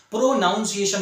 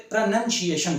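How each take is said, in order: First: "प्रोनाउंसिएशन" said pro-NOUN-see-ation, with "noun" in it; wrong pronunciation. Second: "प्रोनाउंसिएशन" said pruh-NUN-see-ation, no "noun" in it; correct pronunciation. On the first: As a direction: mispronounce "प्रोनाउंसिएशन" with a full "nounce" sound. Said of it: "प्रोनाउंसिएशन नहीं बोलते". ("प्रोनाउंसिएशन" का गलत उच्चारण, प्रो-नाउन्-सिएशन) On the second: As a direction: say "प्रोनाउंसिएशन" with a short "nun" in place of "nounce". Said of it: "प्रोनाउंसिएशन बोलते". ("प्रोनाउंसिएशन" का सही उच्चारण, प्रनन्सिएशन) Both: Shown as a demonstration.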